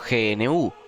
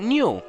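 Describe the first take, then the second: First: The name is said with Spanish pronunciation. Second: The name is said with English pronunciation.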